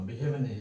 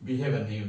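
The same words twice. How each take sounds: No difference in how they are said.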